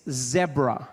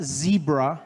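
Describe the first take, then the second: First: "zebra" with a short e, "zeh-bra", slow; British pronunciation. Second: "zebra" with a long ee, "zee-bra", slow; American pronunciation. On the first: Trevor correcting the audience, in British pronunciation. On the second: Trevor correcting the audience, in American pronunciation. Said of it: "it's not". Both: Shown as a demonstration.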